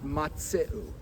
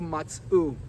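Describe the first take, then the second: First: The shva is voiced, giving three syllables. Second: The shva is silent, giving two syllables. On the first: The speaker calls it right. "not a shiva na" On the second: The speaker calls it wrong. "He did a shva nach"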